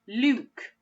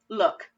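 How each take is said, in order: First: The vowel is a long oo sound. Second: The vowel is a short oo sound. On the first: The speaker calls it wrong. "Does that sound right? No" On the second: The speaker calls it right. "That oo also makes the uh sound"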